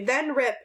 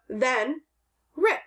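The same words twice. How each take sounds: First: The words run together with no pause. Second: There is a slight pause after then.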